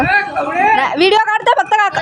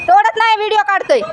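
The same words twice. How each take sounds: First: Raised, higher voice calling across the field; telling the shouting farmer she's only filming; calling out to uncle. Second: High, raised call across the field; calling out to uncle. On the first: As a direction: reassure the farmer from a distance. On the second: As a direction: insist from afar that nothing is picked. Calling out to shouting farmer. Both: Real, not acted.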